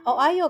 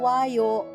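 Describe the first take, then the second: First: The o and ayo are said as separate vowels. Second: The o and ayo merge quickly into wayo. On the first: The speaker calls it wrong. "Tapi kan nggak bisa o ayo kan" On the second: The speaker calls it right. "dicepetin kan"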